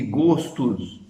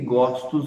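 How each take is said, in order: First: The stressed o vowel is closed. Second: The stressed o vowel is open. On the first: The speaker calls it right. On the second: The speaker calls it wrong.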